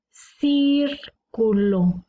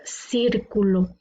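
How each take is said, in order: First: "Círculo" very slowly, long CIR, break, then culo; stressed syllable shown. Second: Said in the usual way. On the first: Shown as a demonstration. Teacher showing antepenultimate stress, drawn-out CIR in "Círculo". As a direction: hold CIR in "Círculo" apart from the rest. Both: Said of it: "Tiene la sílaba tónica en la antepenúltima".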